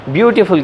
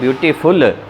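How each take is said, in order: First: The stress is on the first syllable. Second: The stress is on the last syllable. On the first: The speaker calls it right. "ज़्यादातर जो होता है उसमें वो शुरू में स्ट्रेस होती है। आपने ब्यूटीफुल कहना है" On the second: The speaker calls it wrong. "Beautiful कहते हैं तो एंड पे जाके स्ट्रेस देते हैं"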